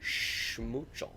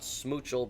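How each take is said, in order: First: The name begins with an sh sound. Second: The name begins with a plain s sound. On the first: The speaker calls it right. "Very important that you got your sh at the beginning there" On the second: The speaker calls it wrong. "Not smoochel"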